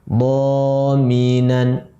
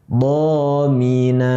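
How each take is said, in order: First: The word ends with an n sound. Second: The word ends on a plain vowel. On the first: The reading continues without stopping. "Menjadi dominan" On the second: The reading stops at this word. "Kita wakafkan menjadi domina"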